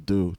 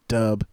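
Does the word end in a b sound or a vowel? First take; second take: vowel; b sound. First: The word ends with a plain vowel. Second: The word ends with a b sound. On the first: The speaker calls it right. "It's do" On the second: The speaker calls it wrong. "It's not dub"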